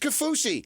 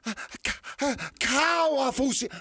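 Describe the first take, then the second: First: The name is said with a plain American pronunciation. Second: The name is said with a Polynesian-style pronunciation. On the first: Using the speaker's own natural way of speaking. The speaker calls it right. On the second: Trying to sound authentic to the name's origin. The speaker calls it wrong.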